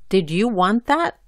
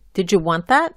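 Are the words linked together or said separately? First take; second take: separately; linked. First: Each word is said clearly and separately. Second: The words run together and link. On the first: "la pronuncio bien y claramente" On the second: "juntando o enlazando las letras"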